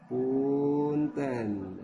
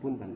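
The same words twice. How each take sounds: First: The word is drawn out with a melodic lilt. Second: The word is said short and clipped. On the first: The speaker calls it right. "tapi punten. Nah, jadi ada cengkoknya" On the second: The speaker calls it wrong. "nggak pendek, bukan punten"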